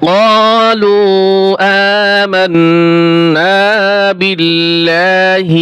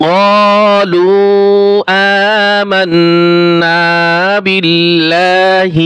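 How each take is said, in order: The two takes are said the same way.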